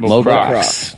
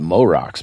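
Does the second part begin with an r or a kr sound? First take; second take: kr; r. First: The second part begins with a kr sound. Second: The second part begins with a plain r sound. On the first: The speaker calls it right. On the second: The speaker calls it wrong.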